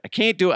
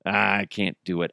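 First: Much higher put-on voice; high goofy Wahlberg line; Wahlberg attempt. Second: Said in the usual way. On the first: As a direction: squeak it as the failed impression. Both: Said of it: "I need to work on it".

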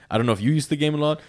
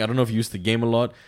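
First: Same question pitched up and brighter; higher repeat. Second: Said in the usual way. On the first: Real, not acted. Repeating the question to friends, pitched higher. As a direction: ask again, lifting the pitch.

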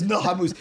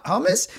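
First: "Hamus" with a long "oo"; correcting pronunciation. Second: "Hamas" with weak second vowel, rising; mispronounced questioning name. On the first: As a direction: correct them, sounding "Hamus" as ha-MOOS. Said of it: "He goes". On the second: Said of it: "You go". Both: Retold or imitated.

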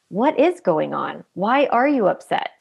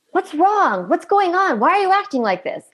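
First: Asked with curiosity. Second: Much higher, sharp exasperated questioning; asked angrily. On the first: Parent calmly asking an upset toddler, gentle curious tone. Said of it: "asking it from curiosity". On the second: Parent confronting a misbehaving toddler, angry demanding questions. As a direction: demand an answer, fed up. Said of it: "instead of asking it angrily". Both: Retold or imitated.

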